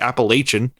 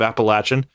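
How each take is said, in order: First: It uses the northern Pennsylvania regional pronunciation. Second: It uses the southern Virginia regional pronunciation. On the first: This is how people in Pennsylvania say it. "Up there, there's a bit of a difference because they say Appalachian" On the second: This is how people in Virginia say it. "instead of Appalachian"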